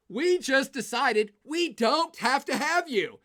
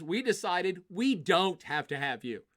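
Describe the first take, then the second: First: Louder, higher and slow, hitting each word; emphatic. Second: Said in the usual way. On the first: Pretend. Germany repeating the rejection to Russia, loud and slow. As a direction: drive it home, slow and loud.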